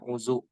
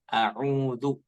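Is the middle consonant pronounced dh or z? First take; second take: z; dh. First: The middle consonant is a plain z sound. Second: The middle consonant is a soft dh sound. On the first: The speaker calls it wrong. "terlebih kita orang Sunda ya, biasanya bacanya a'uzu" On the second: The speaker calls it right. "pakai dza, dzal dzal"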